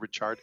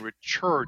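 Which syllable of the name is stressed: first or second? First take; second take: first; second. First: The stress is on the first syllable. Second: The stress is on the second syllable. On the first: It is the usual way to say the name. "instead of Richard" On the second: It is the version the nickname came from. "So he came up with the nickname Churd for himself, like as in Richard"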